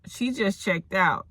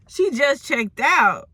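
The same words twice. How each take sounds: First: Said in the usual way. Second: High, slow, drawn-out disbelief; scandalized repeat. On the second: Acted. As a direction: stretch it out as a juicy revelation. Scandalized repeat of staff's words.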